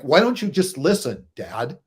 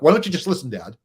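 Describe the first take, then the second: First: It is said at a slower, clearer pace. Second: It is said very fast, like his daughter.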